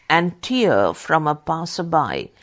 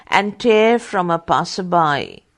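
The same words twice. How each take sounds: First: "tear" said as TEER, rhyming with ear; tear as teardrop. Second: "tear" said as TARE, rhyming with air; tear as rip. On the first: Correcting the reading for students, "tear" as TEER. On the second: Rereading the line for students, "tear" as TARE. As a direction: say "tear" like tearing paper, TARE. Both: Shown as a demonstration. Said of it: "rereads the line".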